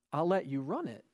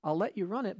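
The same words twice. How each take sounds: First: "run" leaned on with a falling, knowing tune; weight the word "run" and let it drop; "run" pressed in a dry, pointed tone; stress on run. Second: Said in the usual way. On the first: Acted. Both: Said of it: "and he said".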